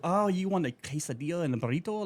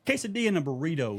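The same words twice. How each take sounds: First: Showy Spanish pronunciation, higher pitched; imitated Spanish-accented order taker; mock Spanish accent. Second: Quesadilla and burrito in English sounds, no rolled r; anglicized "quesadilla" and "burrito", firmly corrective; plain American pronunciation. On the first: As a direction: repeat the order back in an overdone Spanish accent. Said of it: "And they'll go". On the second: Shown as a demonstration. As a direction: insist on unaccented "quesadilla" and "burrito". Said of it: "I'm not trying to enunciate".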